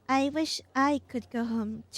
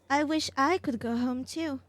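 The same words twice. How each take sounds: First: It is said in a low, mumbled voice. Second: It is said in a normal, clear voice. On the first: The speaker calls it right. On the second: The speaker calls it wrong.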